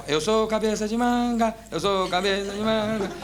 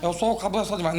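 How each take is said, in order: First: Sung, simple sing-song with held endings; sung, demonstrate the phrase as a little tune; chanted melody, last note sustained. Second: Barely sung, near spoken; sung, imitated tuneless first attempt; failed singing attempt. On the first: Retold or imitated. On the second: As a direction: try to sing it half-heartedly. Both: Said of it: "Agora o senhor fala cantando".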